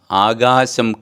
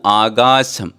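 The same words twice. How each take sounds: The two takes are said the same way.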